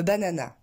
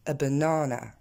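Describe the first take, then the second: First: BANANA with three equal full "a" syllables; French mispronunciation. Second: BANANA with long stressed middle NAA, reduced outer vowels; English pronunciation. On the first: Teacher imitating French learners who botch the English word, French-style mispronunciation. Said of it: "largement écorché par les Français qui disent". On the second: Teacher showing how it is said in English, correctly stressed banana. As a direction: hit the second syllable of BANANA and swallow the first. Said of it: "en anglais, on va le prononcer". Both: Shown as a demonstration.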